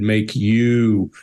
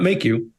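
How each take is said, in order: First: The words are stretched out slowly. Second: The words are said at normal speed. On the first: "an elongated make you" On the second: "not make you"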